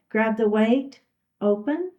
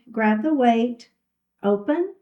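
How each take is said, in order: Both takes have the same delivery.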